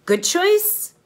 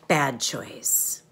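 First: Much higher and louder, rising at the end; sing-song rising "Good choice"; upbeat good choice. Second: Said in the usual way. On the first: Shown as a demonstration. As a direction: lift "choice" up high and loud, like a cheerful prompt. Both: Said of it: "you'll show me with your hands".

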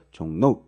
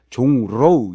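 First: "종로우" said as [종노우]; "종로우" run together with n in place of r; nasal assimilation. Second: "종로우" with a forced r and gliding ending; "종로우" as 종-로우, keeping the r unchanged; unassimilated pronunciation. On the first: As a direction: turn the ㄹ of "종로우" into an n. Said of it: "이렇게 되죠". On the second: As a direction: exaggerate the ㄹ in "종로우". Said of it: "이러지 않죠". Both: Shown as a demonstration.

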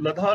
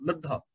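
First: ਲਧਾ with a single, unstressed dh; the undoubled misreading ਲਧਾ; ਲਧਾ without doubling. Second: ਲੱਧਾ with a held, doubled ddh; correctly geminated ਲੱਧਾ; ਲੱਧਾ with doubling. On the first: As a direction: say ਲਧਾ loosely, no held consonant. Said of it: "ਨਹੀਂ ਬੋਲਣਾ". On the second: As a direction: lean on the middle consonant of ਲੱਧਾ. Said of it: "ਇਹਨੂੰ ਲਧਾ ਨਹੀਂ ਬੋਲਣਾ". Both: Shown as a demonstration.

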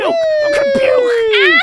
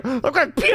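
First: High, loud, slow scream; drawn-out scream. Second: Panicked shout. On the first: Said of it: "repeated, screamed long". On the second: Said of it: "first shout of puke line". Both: Real, not acted.

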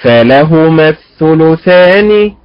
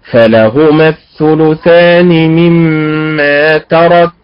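First: فلهما الثلثان slow, stress on the lam; slow, measured, lam stressed; the straight reading of فلهما الثلثان; correct stress. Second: فلهما الثلثان slow, stress on the fa; the meaning-spoiling reading of فلهما; distorted stress. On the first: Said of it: "الأداء المستقيم". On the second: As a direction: recite slowly, leaning on the first syllable. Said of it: "على هذا الأداء". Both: Shown as a demonstration.

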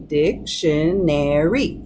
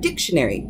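First: "dictionary" drawn out slowly, in four separate syllables. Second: Said in the usual way. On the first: Shown as a demonstration. Teacher counting out the syllables for learners, slow and separated. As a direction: break "dictionary" slowly into dic-tion-ar-y, each part distinct. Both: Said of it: "four syllables".

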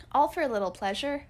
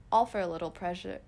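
First: Louder, higher scornful question; mock outrage rising on ALL; indignant echo. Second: Said in the usual way. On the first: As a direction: throw her words back, offended. Indignant echo of mother's words.

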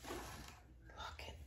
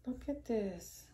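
First: Slow, hushed whisper. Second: Said in the usual way. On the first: Real, not acted. Vlogger whispering to viewers over a gift. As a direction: breathe it out in awe, slowly.

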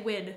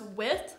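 First: "wid" with a hard D ending; Southern "wid". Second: Said in the usual way. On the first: Shown as a demonstration. Showing how they used to say with, "wid" ending in D. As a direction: say "wid", a D replacing the TH. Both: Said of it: "I would say wid".

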